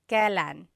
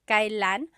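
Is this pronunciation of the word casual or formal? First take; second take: casual; formal. First: The word is said in its everyday, casual form. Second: The word is said in its fuller, formal form. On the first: The speech is everyday and informal. "you will often hear it pronounced" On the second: The speech is more formal. "it's pronounced kailan, It's a little bit more formal"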